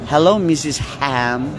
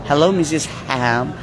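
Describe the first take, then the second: Both takes have the same delivery.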